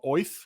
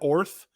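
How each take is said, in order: First: The name is said in a Brooklyn accent. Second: The name is said in a plain accent. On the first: "pronounced as if you have a Brooklyn accent" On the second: "instead of Orth"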